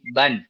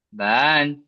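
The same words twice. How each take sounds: First: The vowel is kept short. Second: The vowel is drawn out long. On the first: The speaker calls it right. "baca dibaca pendek" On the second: The speaker calls it wrong. "Jadi bukan baca ban"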